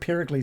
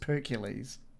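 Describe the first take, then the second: First: The name is said the usual way, Pericles. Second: The name is said to rhyme with Hercules. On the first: "instead of Pericles" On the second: "his mate pronounces it like Hercules"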